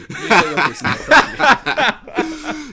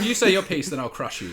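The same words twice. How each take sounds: First: Loud, dragged-out villain threat laughing through it; hammed-up mock threat. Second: Said in the usual way. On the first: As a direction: boom it out like a cartoon villain, slowly.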